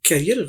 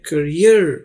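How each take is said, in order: First: The first vowel is open, as in 'cat'. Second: The first vowel is short and reduced. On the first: It means one who carries something. The speaker calls it wrong. "कैरियर गलत है" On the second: It means one's future or profession. The speaker calls it right. "लेकिन यह है करियर"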